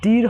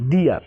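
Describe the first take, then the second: First: The vowel sounds like a plain 'ee'. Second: The vowel glides like 'ear'. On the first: The speaker calls it wrong. "ডির হবে না" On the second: The speaker calls it right. "ই এর উচ্চারণ ইয়ার মতো হয়েছে"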